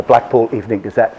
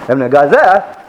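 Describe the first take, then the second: First: Said in the usual way. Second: Slurred street cry of "Evening Gazette"; newspaper seller's cry. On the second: Retold or imitated. Blackpool newspaper seller calling to passers-by, imitated street cry. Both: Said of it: "they have these special cries".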